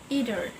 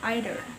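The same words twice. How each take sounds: First: The word is said in an American accent. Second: The word is said in a British accent. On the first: "in American accents, they say either" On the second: "in British accent they say either"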